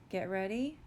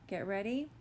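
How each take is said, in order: Both takes have the same delivery.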